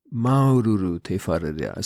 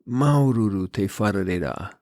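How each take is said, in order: First: A hint of a humble old man, slightly lower, rising on "maururu"; old man's heartfelt greeting, repeated. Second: A hint of a humble old man, slightly lower, "Maururu" leaned on; imitating the temple greeter, sincere and understated; old man's heartfelt greeting. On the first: He repeats it to me, mild sincere rise. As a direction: echo the greeting, warmer and questioning. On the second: Older man greets me at the temple, lightly voiced and sincere. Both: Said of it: "and says".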